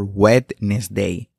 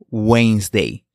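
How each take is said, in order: First: The word is said with a D sound. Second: The word is said without a D sound. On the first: The speaker calls it wrong. "Nunca Wednesday" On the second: The speaker calls it right. "La correcta forma de pronunciar Wednesday es"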